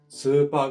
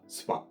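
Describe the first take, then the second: First: The vowels are held long. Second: The vowels are cut short.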